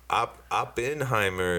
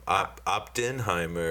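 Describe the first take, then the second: First: The first part sounds like 'Oppen'. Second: The first part sounds like 'opt in'. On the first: It names the man who made the atomic bomb. "Oppenheimer is the guy who created the atomic bomb" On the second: It names something you decide to join. "the thing you, like, you decide to do. You know what I mean? You opt in"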